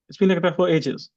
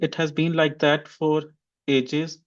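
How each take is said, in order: First: It's contracted and the final t is dropped. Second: Every word and the final t are fully pronounced. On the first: "like how I'm going to speak it is like this" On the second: "in place of saying"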